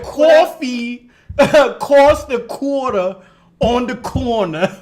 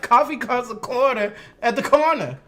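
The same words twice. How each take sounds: First: Slow, loud mock New York accent; exaggerated New Yorker, high and slow; imitating co-host's New York accent. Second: Higher Southern take on the line; Southern vowels with "uh" endings; own Southern accent. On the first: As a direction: drag out the New York vowels, laughing. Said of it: "trying to say it like her". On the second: Shown as a demonstration. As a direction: say it as a Southerner would. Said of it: "Shit, I'd be like".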